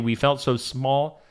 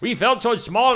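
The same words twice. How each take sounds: First: It is said in the speaker's plain accent. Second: It is said in a put-on German accent.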